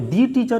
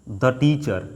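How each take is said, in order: First: 'The' is said with a long 'thee' vowel. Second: 'The' is said with a short 'thuh' vowel. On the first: The speaker calls it wrong. "यहाँ पे दी teacher इसलिए नहीं बोलेंगे" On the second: The speaker calls it right. "तो हम क्या बोलेंगे द teacher"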